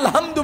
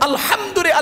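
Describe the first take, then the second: First: The 'h' is a plain light sound. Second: The 'h' is a strong breathy throat sound. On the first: The speaker calls it wrong. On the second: The speaker calls it right.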